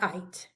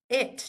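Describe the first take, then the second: First: The vowel is long and says its name. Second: The vowel is short and does not say its name. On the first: The speaker calls it wrong. "not it" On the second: The speaker calls it right.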